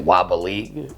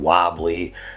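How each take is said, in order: First: The word is stretched with extra syllables added. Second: The word is said with its normal syllables. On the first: "I add like little syllables to words" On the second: "instead of saying wobbly"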